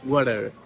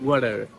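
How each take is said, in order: First: The t is a soft, d-like tap. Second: The t is a soft, d-like tap.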